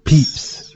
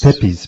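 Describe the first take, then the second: First: Pepys said as one syllable, "peeps"; echoed correct pronunciation. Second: Pepys said as two syllables, "PEP-eez"; mistaken pronunciation. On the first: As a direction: repeat Pepys as "peeps", checking it. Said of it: "you say, is it?". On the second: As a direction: say Pepys like "peppies". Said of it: "Could you pronounce that surname again?". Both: Shown as a demonstration.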